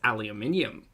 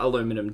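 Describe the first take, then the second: First: The word has five syllables, ending in -nium. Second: The word has four syllables, ending in -num. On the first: The speaker calls it right. "It's aluminium" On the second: The speaker calls it wrong. "It's not aluminum though"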